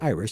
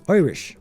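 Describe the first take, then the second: First: It is said in a plain accent. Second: It is said in an Irish accent.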